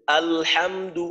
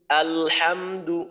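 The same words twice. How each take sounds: The two takes are said the same way.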